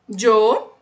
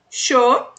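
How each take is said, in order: First: It starts with a dj sound. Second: It starts with a sh sound. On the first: "A segunda é a que eu falo. Som de D J" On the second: "a primeira é com som de X"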